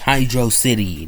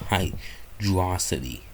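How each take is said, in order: First: It is said as two separate words. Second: It is said as one run-together word. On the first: The speaker calls it right. "It's Hydro City" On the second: The speaker calls it wrong. "not hydrosity"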